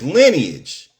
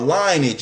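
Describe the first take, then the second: First: The first syllable sounds like 'lin'. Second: The first syllable sounds like 'line'. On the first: The speaker calls it right. "By the way, it's lineage" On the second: The speaker calls it wrong. "You said linebacker or something"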